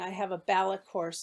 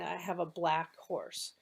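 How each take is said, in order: First: An extra vowel splits 'black' into two syllables. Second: The word 'black' is said as one syllable. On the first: The speaker calls it wrong. "inserting extra sounds in a word" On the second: The speaker calls it right. "instead of saying"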